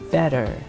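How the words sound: It is said in an American accent. "in American accent they'll say it better"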